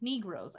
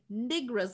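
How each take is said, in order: First: The first vowel sounds like 'ee'. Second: The first vowel sounds like 'i'. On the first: The speaker is comfortable and respectful. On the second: The speaker is uneasy and edging toward a slur.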